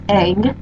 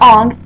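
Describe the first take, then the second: First: The vowel is the front 'a' of 'bang'. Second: The vowel is the back 'o' of 'long'. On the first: The speaker calls it right. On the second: The speaker calls it wrong. "not Ong"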